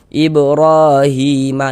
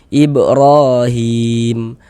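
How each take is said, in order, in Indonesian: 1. Bacaan berlanjut tanpa berhenti setelahnya. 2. Bacaan berhenti sepenuhnya pada huruf mim terakhir. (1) "misalnya kita wasolkan gitu ya" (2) "tadi kita bacanya itu berwakaf di huruf mim"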